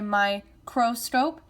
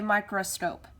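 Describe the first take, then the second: First: The second syllable has a clear full o vowel. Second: The second syllable has a weak, reduced vowel. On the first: "some people may say microscope" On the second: "a lot of people say microscope. So there's going to be a think to spell in the second syllable"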